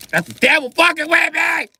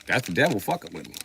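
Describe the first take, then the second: First: Higher, louder, fed up; exasperated outburst. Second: Said in the usual way. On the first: Acted. Fed up, yelling at the devil tormenting him. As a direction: blow up at the devil. Repeats line as loud outburst.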